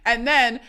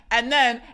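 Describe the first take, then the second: No difference in how they are said.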